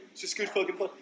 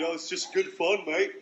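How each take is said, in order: First: Mock British accent, much higher, leaning hard on "fucking"; mock British bloke, pushed further. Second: Cheery mock British accent, a bit higher and louder; mock British bloke. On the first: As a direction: double down as the British fan, punching "fucking" in a British accent. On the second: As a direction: play the jolly British fan shrugging it off in a British accent. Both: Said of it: "How do you take it?".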